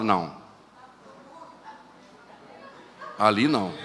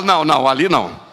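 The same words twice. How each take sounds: First: Dismissive no. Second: Emphatic no. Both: Retold or imitated. Judging a lifeless believer.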